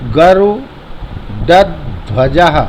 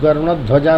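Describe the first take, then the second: First: A d sound follows garu. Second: An n sound follows garu. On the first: The speaker calls it right. "ये डा है" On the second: The speaker calls it wrong. "गरुणध्वजा नहीं बोलना है"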